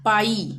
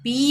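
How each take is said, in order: First: The vowel glides from ah to ee. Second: The vowel is a plain ee sound. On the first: The speaker calls it right. "इसको हम पढ़ेंगे पाई, आ ई" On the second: The speaker calls it wrong. "पी नहीं पढ़ेंगे"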